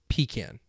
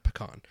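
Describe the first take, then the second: First: Pecan is said the Southern way. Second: Pecan is said the non-Southern way. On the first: This is how people in the South say it. "people in the South, anywhere South Carolina and further down, will say pecan" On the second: This is how people outside the South say it. "Not pecan"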